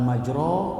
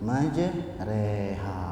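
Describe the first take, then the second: First: The vowel after r is an o sound. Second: The vowel after r is a middle e sound. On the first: The speaker calls it wrong. "Bukan majro" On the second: The speaker calls it right. "tapi di tengah-tengah jadi e"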